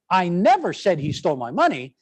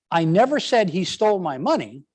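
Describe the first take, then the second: First: Never punched, rest plain; stress on NEVER. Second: I punched, rest plain; stress on I. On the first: Teacher showing a denial to the class, stress on never. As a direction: hit never hard, then let the line fall. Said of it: "then I'm saying". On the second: Teacher demonstrating to the class, stress on I. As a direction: lean on the word I, then let the line fall. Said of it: "with the emphasis on". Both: Shown as a demonstration.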